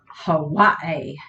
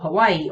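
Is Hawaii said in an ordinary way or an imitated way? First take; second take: imitated; ordinary. First: Hawaii is pronounced in an imitated, unusual way. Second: Hawaii is pronounced in the ordinary way.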